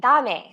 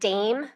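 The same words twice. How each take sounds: First: It has an 'ah' vowel and two syllables. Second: It has a long A vowel, like 'day'. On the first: "in Spanish, that would be dame" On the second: "in English ... we make a long A sound"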